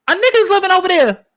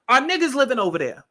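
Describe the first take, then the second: First: Much higher and louder, a hammed-up outburst; mock loud exclamation. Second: Said in the usual way. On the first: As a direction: blurt it out high and loud like a caricature. Exaggerated mock exclamation after apology.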